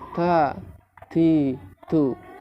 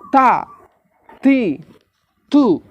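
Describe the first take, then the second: First: The t is released weakly and softly. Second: The t is released strongly and firmly. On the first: The speaker calls it wrong. "Bukan begitu ya" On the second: The speaker calls it right. "Syiddah kuat. Pelafatannya begitu"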